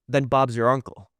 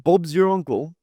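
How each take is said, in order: First: It is said in his normal American accent. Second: It is said in a fake British accent.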